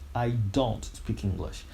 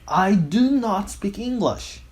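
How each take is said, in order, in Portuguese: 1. O auxiliar é contraído em uma sílaba, don't. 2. Do e not são ditos separadamente e com ênfase. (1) "numa linguagem natural, é muito comum as pessoas fazerem essa contração" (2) "você já está tão irritado que você deixa isso enfatizado"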